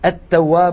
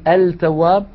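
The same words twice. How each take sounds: First: The l blends into a doubled t. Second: The l is clearly pronounced before t. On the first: The speaker calls it right. "نقول" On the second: The speaker calls it wrong. "ولا نقول التواب"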